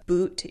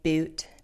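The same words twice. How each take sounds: First: It has the standard, non-shifted vowel. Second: It has the shifted California vowel.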